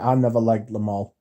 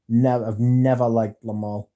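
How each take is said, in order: First: Said in the usual way. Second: "Never" hit hard at the start, then "never" leaned on again; stress on never. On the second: Real, not acted. To the chat, firmly stressing never about Lamal. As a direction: insist with a firm "Never".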